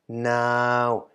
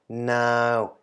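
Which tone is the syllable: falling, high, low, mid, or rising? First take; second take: mid; mid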